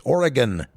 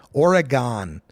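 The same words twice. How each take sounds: First: Oregon with a reduced last syllable; correct local pronunciation. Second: Oregon ending in a full GONE; mispronunciation. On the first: Host correcting the state name, Oregon said the local way. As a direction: say Oregon as OR-uh-gun. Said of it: "Oregon is a state". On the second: Host showing the wrong state name, Oregon mispronounced with GONE. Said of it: "Oregon is not a state". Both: Shown as a demonstration.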